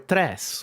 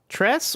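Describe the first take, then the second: First: The R is rolled. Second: The R is not rolled.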